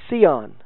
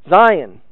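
First: The word begins with an s sound. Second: The word begins with a z sound. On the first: "it is spelled in English S-C-I-O-N" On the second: "we could also pronounce it as Zion"

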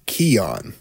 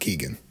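First: The name has no g sound in it. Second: The name has a hard g sound in it. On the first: The speaker calls it right. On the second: The speaker calls it wrong. "I've been doing it wrong. It's not Keegan"

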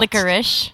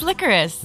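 First: The word ends with an 'ish' sound. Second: The word ends with an 'iss' sound. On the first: "supposed to say Ish? Yes, that's how it's pronounced" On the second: "No, it's licorice"

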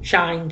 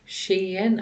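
First: The vowel sounds like the one in 'mine'. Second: The vowel sounds like the one in 'seen'. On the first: "But I call it Shine" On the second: "according to this pronunciation here"

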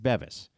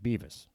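First: The first vowel sounds like 'bed'. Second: The first vowel sounds like 'bee'. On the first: The speaker calls it right. "It's Bevis. We had it right for the second half" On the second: The speaker calls it wrong. "I went with Beavis"

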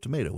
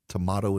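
First: The middle vowel sounds like 'ay'. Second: The middle vowel sounds like 'ah'.

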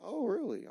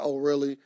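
First: It is said in a seductive way. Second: It is said in a plain, matter-of-fact way.

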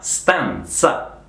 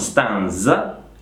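First: The z is voiceless, like ts. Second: The z is voiced, like dz. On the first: The speaker calls it right. "ma stanza, za, come se fosse TZ" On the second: The speaker calls it wrong. "è una Z sorda, sempre quella di pizza, quindi non stanza"

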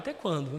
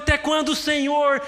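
First: It is said casually, without force. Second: It is said forcefully, with indignation.

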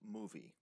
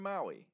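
First: The name is read in a non-English way. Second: The name is read in the English way.

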